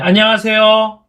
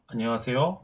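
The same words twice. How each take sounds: First: The greeting is bright and projected far. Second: The greeting is plain and not projected. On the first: "밝은 목소리를 어 이제 멀리 보낸다는 식으로" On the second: "다르잖아요"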